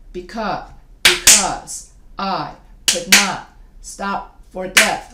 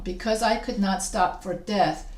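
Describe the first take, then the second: First: Slow, loud beats landing on "not" and "death"; clapped-out poem rhythm. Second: Said in the usual way. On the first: Shown as a demonstration. Teacher demonstrates the poem's beat by clapping, heavy slow stresses. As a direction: chant it slowly, punching "not" and "death" hard. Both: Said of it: "clap to the beat of the first stanza".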